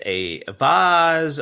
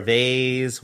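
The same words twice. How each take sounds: First: VASE as one regional variant; regional pronunciation. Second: VASE as the other regional variant; regional pronunciation. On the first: Offering listeners regional variants, VASE in the first pronunciation. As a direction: say VASE the first of its two ways. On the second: Offering listeners regional variants, VASE in the alternative pronunciation. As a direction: say VASE the second of its two ways. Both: Shown as a demonstration. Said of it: "wherever you're from".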